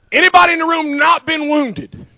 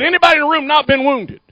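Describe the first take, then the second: First: Said in the usual way. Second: Rushed, fast question; too fast. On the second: Real, not acted. Preacher rushing his question at the congregation, fast. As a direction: rattle it off too quickly. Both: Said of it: "I say it so fast".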